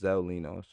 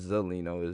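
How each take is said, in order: First: The name is said as two separate parts. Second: The name is run together as one word. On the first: The speaker calls it right. "it's Zelino" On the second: The speaker calls it wrong. "it's not Zelino"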